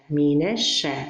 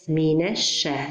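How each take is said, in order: No difference in how they are said.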